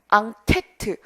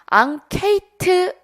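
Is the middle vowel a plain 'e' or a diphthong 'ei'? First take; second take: e; ei. First: The middle syllable has a plain 'e'. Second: The middle syllable has an 'ei' glide. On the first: The speaker calls it right. "앙케트가 맞습니다" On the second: The speaker calls it wrong. "이게 아니라 뭐죠?"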